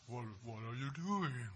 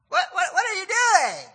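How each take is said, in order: First: It is said in a deeper voice. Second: It is said in a higher voice.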